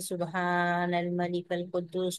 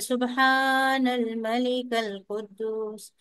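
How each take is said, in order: First: It is said in a soft voice. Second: It is said in the loudest voice.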